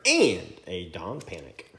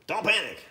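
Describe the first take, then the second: First: Said in the usual way. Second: Higher, louder playful warning; mock alarmed shout. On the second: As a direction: yell it like a joke alarm. Pun on card name Don Panic.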